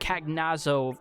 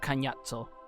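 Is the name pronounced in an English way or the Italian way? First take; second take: English; Italian. First: The name is pronounced an English way. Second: The name is pronounced the Italian way. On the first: This is how the speaker said it since childhood. "I called him Cagnazzo uh, since childhood" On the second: This is the official pronunciation now used. "they went with the proper Italian pronunciation"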